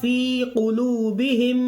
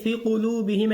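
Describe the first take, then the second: First: The vowel in 'fi' is drawn out long. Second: The vowel in 'fi' is cut short quickly. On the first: The speaker calls it right. "फी को खींचिएगा" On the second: The speaker calls it wrong. "अब फी को जल्दी मत पढ़ दिएगा, ... ऐसे नहीं"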